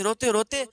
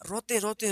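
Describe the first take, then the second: First: Second روتے روتے said louder, pressed harder; louder emphatic روتے روتے; building repetition. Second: Said in the usual way. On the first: A narrator's reading. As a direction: push روتے روتے up with louder stress.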